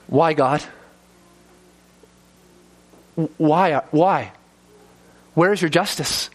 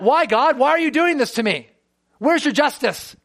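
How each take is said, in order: First: Humble plea. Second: Higher, pointed demanding questions; accusatory. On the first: Retold or imitated. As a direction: ask God humbly, not accusing. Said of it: "humbly asking God". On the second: Shown as a demonstration. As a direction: shake your fist at God as you ask. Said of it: "You can say it in an accusatory manner".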